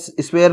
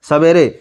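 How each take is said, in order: First: The word starts with a tight sw cluster. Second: A vowel separates the s and the w. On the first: The speaker calls it wrong. "इसको ऐसे आप स्वेर नहीं पढ़े" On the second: The speaker calls it right. "आप इसको पढ़े सवेरे"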